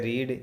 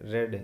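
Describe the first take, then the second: First: The vowel is a long 'ee' sound. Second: The vowel is a short, quick 'e' sound. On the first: "ई की मात्रा आएगी" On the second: "ए की मात्रा थोड़ा जल्दी से बोलना पड़ेगा"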